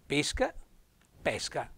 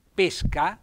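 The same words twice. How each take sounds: First: "pesca" with a closed E, PÉ-sca; closed-E "pesca", the sport of fishing. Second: "pesca" with an open E, PÈ-sca; open-E "pesca", the fruit. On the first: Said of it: "è con lei chiusa". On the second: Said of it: "cioè la E aperta". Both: Shown as a demonstration.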